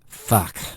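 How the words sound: It sounds displeased.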